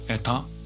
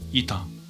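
First: The first vowel is pronounced as e. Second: The first vowel is pronounced as i. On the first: This is the usual name of the letter. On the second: This is how modern Greek says the letter.

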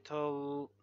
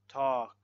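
First: The L sound is pronounced. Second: The L sound is silent. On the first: The speaker calls it wrong. "So we don't say tol, no" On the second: The speaker calls it right. "Silent L when it's difficult to pronounce even for a native speaker, like these words"

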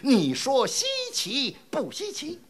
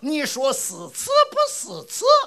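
First: It is said in standard Mandarin pronunciation. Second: It is said in Hefei dialect with heavy sibilants.

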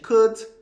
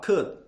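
First: The final consonant is clearly released. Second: The final consonant is held back, not released. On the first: The speaker calls it wrong. "tá vendo que tá saindo t, t" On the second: The speaker calls it right. "E você falar sem pronunciar"

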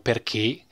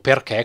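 First: It is said with the standard Italian vowel. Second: It is said with a northern Italian vowel. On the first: The speaker calls it right. "come dovrebbe essere invece pronunciato" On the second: The speaker calls it wrong. "noi al nord tra l'altro diciamo perché, come è scritto qua"

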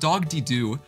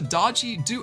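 First: The first word sounds like 'dog-dee'. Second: The first word sounds like 'dodgy'. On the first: The speaker calls it right. "That is pronounced Dogdy Do" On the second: The speaker calls it wrong. "that is not pronounced Dodgy Do"

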